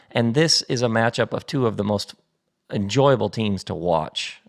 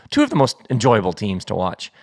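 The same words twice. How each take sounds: First: Sportscaster delivery; like a TV match announcer. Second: Said in the usual way. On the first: Real, not acted. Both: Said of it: "I sound like an announcer".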